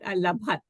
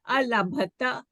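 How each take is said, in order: First: The word ends on a consonant sound. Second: The word ends on a final vowel sound. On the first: The speaker calls it wrong. "not alabhat" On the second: The speaker calls it right. "alabhata would be"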